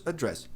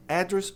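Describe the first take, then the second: First: "address" as a-DRESS; weak A, strong DRESS in "address"; final-syllable stress. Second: "Address" as AD-dress; first-syllable stress. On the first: Teacher offers a choice, end-stressed variant. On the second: Teacher offers a choice, front-stressed noun. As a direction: stress the opening vowel of "Address". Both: Shown as a demonstration. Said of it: "Tem duas maneiras de pronunciar".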